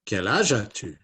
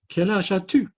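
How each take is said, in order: First: Understated puppet question, no squeak; Matisse puppet voice. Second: High, loud puppet question; high-pitched character voice; Inès puppet voice. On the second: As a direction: squeak out the question as a little puppet. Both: Acted. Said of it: "Matisse and Inez".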